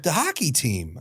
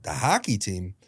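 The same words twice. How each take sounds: First: Said in the usual way. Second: Lower-pitched, puzzled echo of HOCKEY TEAM; confused. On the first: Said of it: "he's like". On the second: Retold or imitated. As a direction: echo it back baffled, pitched down. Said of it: "I'm legitimately confused".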